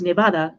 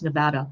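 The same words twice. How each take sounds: First: The word is said with a Spanish-style vowel. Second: The word is said with an American-style vowel. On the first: "I say Nevada because Nevada in um, Nevada in uh, Spanish means snowfall" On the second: "but apparently it's Nevada"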